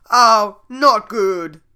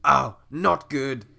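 First: Bad voice. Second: Slowed retry. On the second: Acted. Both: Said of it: "that wasn't a good voice".

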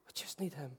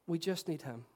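First: Soft whisper of need Him; hushed whisper to the congregation; whispered repeat. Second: Said in the usual way. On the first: Shown as a demonstration. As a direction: breathe it almost silently.

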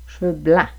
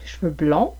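First: "blancs" with open nasal "an"; "blancs" kept distinct from "blonds". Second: "blonds" with rounded nasal "on"; "blonds" kept distinct from "blancs"; closed on. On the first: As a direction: say "cheveux blancs" with the open Quebec "an". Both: Shown as a demonstration. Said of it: "une plus grande différence de prononciation au Québec".

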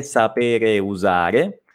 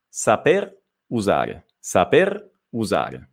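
First: "sapere usare" very slowly, both E and U sounded; slow "sapere usare", final E kept on "sapere"; clumsy vowel clash. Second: Slow, lower "saper usare", "saper" ending on R; measured "saper usare", clean R then U; smoother dropped E. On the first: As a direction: drag out "sapere usare" to show the two vowels colliding. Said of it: "suona un po' male". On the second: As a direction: model "saper usare" without the E before U. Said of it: "Suona meglio". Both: Shown as a demonstration.

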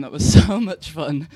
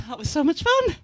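First: Loud, laughing through it. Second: Bright and bubbly, pitched up; excited, high. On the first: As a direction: breaks into a laugh midway. Second take, with a laugh. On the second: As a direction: gush it out happily. First of two takes. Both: Real, not acted.

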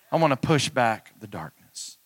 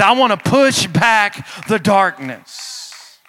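First: Said in the usual way. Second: High, loud, drawn-out preacher's cry; booming declaration, stretched and raised in pitch; shouted rallying cry. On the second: Real, not acted. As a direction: belt it out slowly to rouse the congregation. Rallying cry at sermon's peak.

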